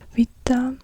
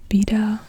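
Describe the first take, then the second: First: The word begins with a V sound. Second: The word begins with a B sound. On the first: The speaker calls it right. "it's more like the English V" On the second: The speaker calls it wrong. "not alpha and then beta or beta in English, but a V sound and not a B"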